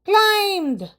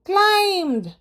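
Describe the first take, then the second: Both takes have the same delivery.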